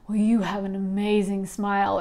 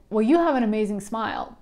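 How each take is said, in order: First: It is said with strong, intense emotion. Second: It is said in a casual, ordinary way.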